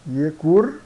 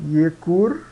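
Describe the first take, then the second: No difference in how they are said.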